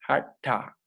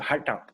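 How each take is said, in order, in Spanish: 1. La palabra se dice despacio y con cuidado. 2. La palabra se dice muy rápido. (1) "La lengua se retrae" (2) "A veces la gente lo dice muy rápido"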